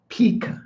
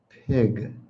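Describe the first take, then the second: First: The word is said as peak. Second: The word is said as pig. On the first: The speaker calls it wrong. "Most students are going to pronounce this peak" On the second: The speaker calls it right. "let me pronounce it properly for you"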